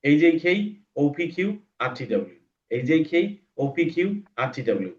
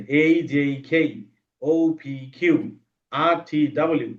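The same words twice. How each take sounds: First: Quickly. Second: Slowly. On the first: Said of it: "এরপর speed". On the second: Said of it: "পড়বা ধীরে ধীরে". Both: Shown as a demonstration.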